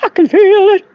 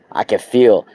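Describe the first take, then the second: First: Very high, loud exclaim; ecstatic. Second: Said in the usual way. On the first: Real, not acted. Feeling the crystal's energy, very high ecstatic cry. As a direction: cry it out in rapture.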